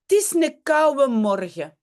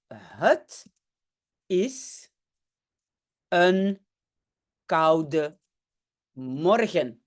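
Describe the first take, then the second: First: It is said in a reduced regional dialect. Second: It is said in standard official Dutch.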